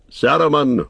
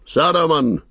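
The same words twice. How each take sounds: First: Calling the name out loud with authority; a commanding wizard hailing the tower; loud commanding cry. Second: The second call pitched higher and more insistent; the wizard's insistent repeated summons; louder, higher commanding cry. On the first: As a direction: summon him with a firm ringing call. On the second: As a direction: raise the call higher to demand an answer. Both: A narrator's reading. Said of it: "he cried in a loud, commanding voice".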